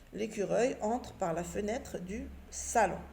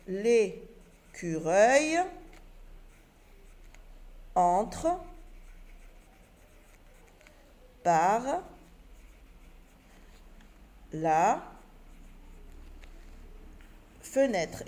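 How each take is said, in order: First: Said in the usual way. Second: Each word stretched out, long pauses between; slow dictation. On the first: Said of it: "voici la phrase correcte". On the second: Shown as a demonstration. Teacher to pupils, dictating the rewritten sentence word by word. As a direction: dictate word by word while writing. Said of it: "et je réécris ma phrase".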